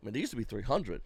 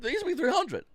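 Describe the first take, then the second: First: Said in the usual way. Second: "They used to be three hundred" higher, with "used" pushed hard; emphatic reminder. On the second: Shown as a demonstration. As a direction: drive the old price home. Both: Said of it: "You know that, right?".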